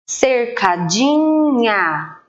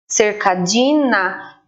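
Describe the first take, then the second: First: The last syllable has a palatal 'nh' sound. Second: The last syllable has a plain 'n' sound. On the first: The speaker calls it right. "o som do N H é nha" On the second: The speaker calls it wrong. "a gente não fala desse jeito"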